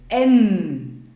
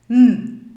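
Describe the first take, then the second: First: The nasal sound comes with a vowel sound. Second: Only a bare nasal hum is heard. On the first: The speaker calls it right. "N kann man besser verstehen" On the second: The speaker calls it wrong. "wenn ich nur den Buchstaben N ausspreche, würde ich sagen"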